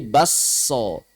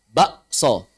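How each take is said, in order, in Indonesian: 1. K menyatu menjadi s panjang yang ganda. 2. K berubah menjadi hentian glotal sebelum s. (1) "tapi diidgham menjadi basso" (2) "kafnya diubah menjadi hamzah, dibaca bakso"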